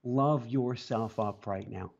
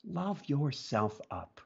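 First: Slow, gentle repeat; slow sincere urging; tender. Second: Lingering on love; tender. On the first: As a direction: linger on love yourself up. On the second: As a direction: let it land gently. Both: Real, not acted. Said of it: "one last thing for people".

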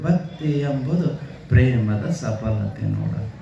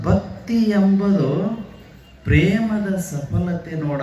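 First: Lower, slow, reverent recitation; quoted saying, lower. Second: Slow, drawn-out recitation of the guru's words; solemn quoted saying. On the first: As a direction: sink the voice low on ಪ್ರೇಮದ ಸಫಲತೆ ನೋಡ. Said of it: "ಪುಟ್ಟಯ್ಯಜ್ಜವ್ರು ಒಂದೇ ಮಾತು". (ತಗ್ಗಿದ ಧ್ವನಿಯಲ್ಲಿ ಭಕ್ತಿಯಿಂದ ಹೇಳಿದ ವಚನ) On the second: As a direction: stretch ಎಂಬುದು out with a rise, very slowly. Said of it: "ಪುಟ್ಟಯ್ಯಜ್ಜವರು ಏನ್ ಹೇಳಿದ್ರು ಅಂತಂದ್ರೆ". (ನಿಧಾನವಾಗಿ ಎಳೆದು ಹೇಳಿದ ವಚನ) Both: Retold or imitated.

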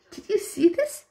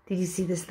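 First: Much higher, thrilled squeal on "you"; delighted squeal. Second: Said in the usual way. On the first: Real, not acted. Fan gushing to viewers about a sweet YouTuber, high delighted squeal. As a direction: rise up high on "you" as if you can't contain it. Rewatching clip, gushing over Anne.

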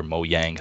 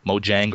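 First: Mojang said with a Y sound, "mo-yang"; "Mojang" as MOH-yang; pronunciation variant. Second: Mojang said with a J sound, "mo-jang"; "Mojang" as MOH-jang; pronunciation variant. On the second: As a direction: say "Mojang" with a hard English J. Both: Shown as a demonstration. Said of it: "however you wanna say it".

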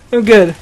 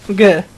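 The two takes are said the same way.

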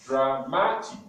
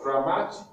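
First: "dramatic" slowly divided into three syllables; syllabified. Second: Said in the usual way. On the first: Shown as a demonstration. Teacher showing three syllables, "dramatic" slowly broken up. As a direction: say "dramatic" as dra, ma, tic. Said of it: "because it has three syllables". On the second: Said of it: "we are going to syllabify words".

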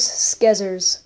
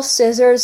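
First: "skizzers." with a hard k after the s; own pronunciation. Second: Said in the usual way. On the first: Shown as a demonstration. Gamer showing what he calls scissors, "skizzers." with hard sk. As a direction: say "skizzers." with sk at the start. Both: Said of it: "I call scissors skizzers".

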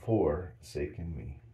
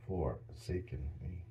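First: "Forsaken" slow and stretched; drawn-out forsaken. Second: "Forsaken" slow and much softer. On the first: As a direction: drag out "Forsaken me" slowly. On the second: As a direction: breathe "Forsaken me" out softly and slowly. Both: Shown as a demonstration. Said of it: "put an S in there".

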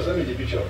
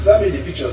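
First: Said in the usual way. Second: Louder, pushier repeat of the demand; insistent demand. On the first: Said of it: "repeat of demand, dropped". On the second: Acted. Husband pushing his wife, a louder insistent demand. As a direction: press her hard for the photo. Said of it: "husband demanding the photo again".

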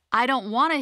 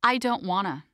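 First: A bit higher and louder, whiny rise; Hilda's voice. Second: Said in the usual way. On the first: Shown as a demonstration. Narrator voicing Hilda, mildly whining about effort. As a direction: say it like a reluctant kid. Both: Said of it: "Hilda justifies inaction".

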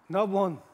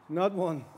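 Both takes have the same delivery.

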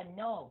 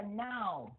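First: "no" with a rounded oh vowel; vowel contrast. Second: "now" with a wide ow glide, falling; vowel contrast. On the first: Teacher contrasting two look-alike words, rounded "no". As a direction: keep "no" a round oh, not ow. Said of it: "còn một chữ đọc là no". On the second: Teacher contrasting two look-alike words, wide gliding "now". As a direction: open "now" out into ow. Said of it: "Một chữ đọc là now". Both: Shown as a demonstration.

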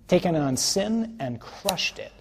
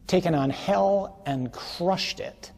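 First: Sin punched, higher and louder; triumphant slow proclamation; fervent refrain. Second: Hell punched, higher and louder; triumphant slow proclamation; fervent refrain. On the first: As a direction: hammer sin and crushed it. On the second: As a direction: hammer hell and crushed it. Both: Real, not acted.

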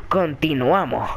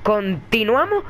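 First: "continuamos" drawn out, falling low at the end; falling tune. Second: "Continuamos" drawn out, rising at the end; rising tune. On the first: Player answering himself as the game resumes, falling tune on "continuamos". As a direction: settle "continuamos" slowly downward. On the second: Player resuming the game, rising tune on "Continuamos". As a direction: stretch "Continuamos" slowly upward like a question. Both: Real, not acted. Repeats the word with opposite tune.

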